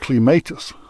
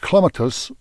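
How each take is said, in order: First: It uses the Scottish pronunciation of the word. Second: It uses the British pronunciation of the word. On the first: "which the Scots say" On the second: "which the Brits and Janine Wishy say"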